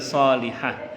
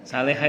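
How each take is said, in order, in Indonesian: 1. Vokal pertama adalah bunyi o bulat. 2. Vokal pertama adalah bunyi a terbuka. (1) "harus mendoakan yang benar" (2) "Salehah itu mencret artinya"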